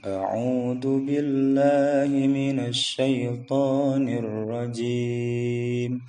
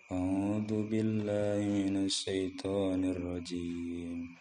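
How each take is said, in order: First: Each letter is released clearly and distinctly. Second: The letters are slurred lazily and held back. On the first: The speaker calls it right. "harus jelas keluarnya itu" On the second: The speaker calls it wrong. "Jangan seperti orang malas"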